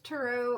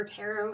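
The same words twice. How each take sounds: First: "tarot" with a reduced first vowel, tuh-ROH; alternative pronunciation. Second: "tarot" with a full first vowel, TAIR-oh; preferred pronunciation. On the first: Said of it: "however people want to say it". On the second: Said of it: "I say tarot". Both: Shown as a demonstration.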